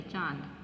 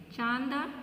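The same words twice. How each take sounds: First: "चांद" with nasalised long a, falling; corrected with chandrabindu. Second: "चांद" with full n, chaand, rising; missing nasal dot. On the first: Teacher corrects the word, low falling nasalised "चांद". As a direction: lower "चांद", vowel through the nose. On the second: Teacher reads out the faulty word, rising "चांद" with full n. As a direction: read "चांद" as misspelt, voice lifted. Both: Shown as a demonstration. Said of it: "चंद्र बिंदु आना चाहिए".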